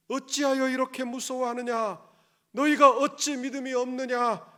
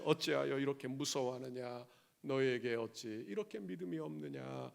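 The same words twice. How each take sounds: First: Loud, higher rebuke of the disciples; Jesus rebuking. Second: Lower, softer tender question; gentle Jesus. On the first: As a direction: demand it like a master scolding fearful followers. (겁먹은 제자들을 꾸짖는 예수님, 크고 높게) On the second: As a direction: ask it quietly, like a caring Lord to a frightened believer. Jesus speaks to us now. (두려워하는 성도에게 묻는 주님, 낮고 부드럽게) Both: Acted.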